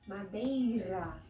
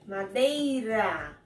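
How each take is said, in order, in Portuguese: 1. O R é falado suave, leve. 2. O R é falado forte, com força. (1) "Não precisa ser tão forte, é mais suave" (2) "Eu não preciso falar tão forte assim"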